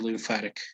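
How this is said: The T is said in an American way. "in U S English, it would be"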